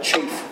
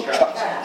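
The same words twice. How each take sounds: First: "Chaff" with the a of "cape", softly; "Chaff" rhyming with safe; pronounced chaff. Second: "chaff" with a broad aw vowel; "chaff" with an open o sound; alternate chaff. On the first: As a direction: say "Chaff" like chafe. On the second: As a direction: say "chaff" like chawf. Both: Shown as a demonstration. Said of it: "Is that how you say that word".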